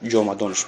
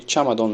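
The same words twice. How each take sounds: First: Ҷомадонш begun with j and an o; Tajik pronunciation. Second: Чамадон begun with ch and an a; local pronunciation. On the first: Teacher gives the Tajik word for suitcase, ҷомадонш with j. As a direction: say ҷомадонш with a voiced j, then o. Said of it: "Тоҷикҳо бозаш". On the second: Teacher gives our own word for suitcase, чамадон with ch. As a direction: say чамадон with an unvoiced ch sound. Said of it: "чамадон мегем худмонам". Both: Shown as a demonstration.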